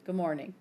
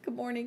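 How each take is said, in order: First: Lower, subdued morning greeting; reply low and short, imitating her; awkward reply. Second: Soft, tentative morning greeting; nervous greeting. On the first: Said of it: "And she's like". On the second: Retold or imitated. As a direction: greet her sheepishly, keeping it small. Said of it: "I'm like, so nervous".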